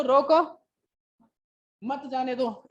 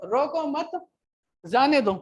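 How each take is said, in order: First: रोको alone, long break, then मत जाने दो together; pause after रोको. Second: रोको मत said as one unit, break, then जाने दो; group रोको with मत, pause, then release जाने दो; pause after मत. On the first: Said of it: "रोक लो". ("रोको" के बाद ठहराव, फिर "मत जाने दो" एक साथ) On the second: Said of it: "कि उस बंदे को छोड़ दो". ("रोको मत" के बाद ठहराव, फिर "जाने दो") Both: Shown as a demonstration.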